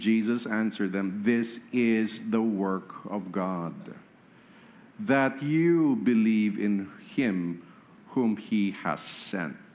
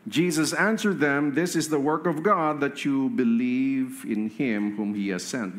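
First: It is read slowly. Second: It is read at normal speed.

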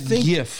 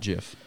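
First: It begins with a hard G, as in graphic. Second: It begins with a soft G, like J. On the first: The speaker calls it right. "I could see it if the word sounded like the beginning. It does not, though. It is graphic" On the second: The speaker calls it wrong. "It's not GIF. It makes no sense"

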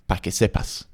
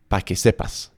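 First: The first word is shortened to one syllable. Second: The first word is shortened to one syllable.

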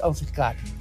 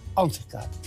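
First: The stress is on the second syllable. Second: The stress is on the first syllable. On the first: The speaker calls it wrong. "niet ansichtkaart. Dat zou Harry dus niet doen" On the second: The speaker calls it right. "het woord is ansichtkaart"

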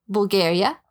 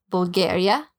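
The two takes are said the same way.

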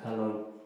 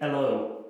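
First: The H at the start is pronounced. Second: The H at the start is dropped. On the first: "rather than hello" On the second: "The most famous loss of the H is in the Cockney accent, think hello"

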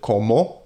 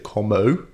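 First: The vowels are short, pure Spanish vowels. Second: The vowels glide like English diphthongs. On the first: The speaker calls it right. "So instead of" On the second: The speaker calls it wrong. "We'd say"

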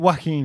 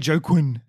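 First: The name is not said the way it is spelled. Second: The name is said the way it is spelled. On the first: This is how the name is supposed to be said. The speaker calls it right. "that's how you say it" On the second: This is how many people say the name. The speaker calls it wrong. "they're just pronouncing it as it is rather than how it's supposed to be"

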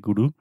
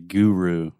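First: It is said with a Brazilian accent. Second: It is said with an American accent.

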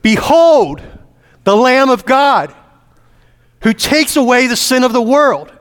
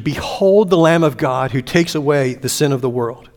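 First: It is proclaimed in a loud, thunderous voice. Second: It is said at normal reading volume.

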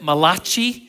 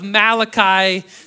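First: The name is said with an Italian accent. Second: The name is said in a standard accent. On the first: "if you're Italian, you could pronounce it Malachi" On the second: "So hopefully I will say it right"

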